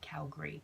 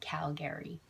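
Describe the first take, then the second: First: The second vowel is dropped, giving two syllables. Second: The second vowel is pronounced, giving three syllables. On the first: The speaker grew up in the city. "They drop that second A" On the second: The speaker did not grow up in the city. "you don't say Calgary like a native"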